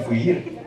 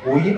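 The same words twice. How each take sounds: First: Fuir with a sounded initial f; ladino pronunciation. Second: Said in the usual way. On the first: Shown as a demonstration. Teacher contrasting Ladino with Spanish, ladino pronunciation. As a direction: say fuir, starting on f. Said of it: "Huir no se dice huir". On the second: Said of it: "se dice fuir".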